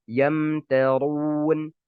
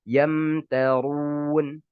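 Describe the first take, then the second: Both takes have the same delivery.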